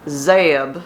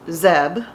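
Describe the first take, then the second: First: The name is said slowly and drawn out. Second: The name is said as one quick syllable. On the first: The speaker calls it right. "like a country chicken" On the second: The speaker calls it wrong. "like Deb"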